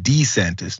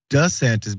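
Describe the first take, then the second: First: The first syllable sounds like dee. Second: The first syllable sounds like duh. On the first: This is the older way the name was said. "better than DeSantis?" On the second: This is the newer way the name is said. "why is DeSantis better than"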